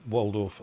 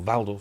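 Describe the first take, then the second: First: The name is pronounced in an English way. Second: The name is pronounced in a German way.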